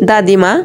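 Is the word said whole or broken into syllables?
whole. The word is said whole without breaks.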